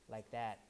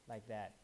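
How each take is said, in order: No difference in how they are said.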